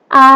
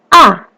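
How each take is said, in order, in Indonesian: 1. Nadanya tetap tinggi dan datar. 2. Nadanya turun tajam ke bawah. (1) "A itu datar. A ditarik" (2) "nada keempat itu turun, ditekan"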